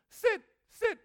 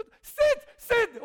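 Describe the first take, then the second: First: Slow, drawn-out sit sit; drawn-out sit, sit like a dog command. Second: Sit sit barked out loud and slow; loud, slow sit, sit bellowed at a dog; loud command. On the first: Shown as a demonstration. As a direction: give the dog a slow, firm order. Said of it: "我就假装狗来了". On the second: Retold or imitated. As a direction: yell the command so the owner hears. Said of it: "我很大声".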